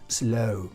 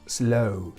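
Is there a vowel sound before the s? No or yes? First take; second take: no; no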